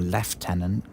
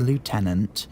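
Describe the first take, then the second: First: It is said with a British pronunciation. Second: It is said with an American pronunciation.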